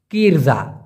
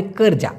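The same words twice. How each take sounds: First: কিরজা said with an i sound, kir-ja; wrong pronunciation. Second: কর্জা said as ker-ja, not kir-ja; correct pronunciation. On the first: Teacher shows learners the mistaken কিরজা pronunciation. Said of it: "এটা ভাই ভুল, ভুল উচ্চারণ". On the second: Teacher gives learners the correct কর্জা pronunciation. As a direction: give the right form কর্জা, ker-ja. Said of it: "হবে কর্জা". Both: Shown as a demonstration.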